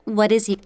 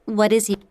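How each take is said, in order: No difference in how they are said.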